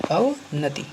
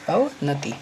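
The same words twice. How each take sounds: The two takes are said the same way.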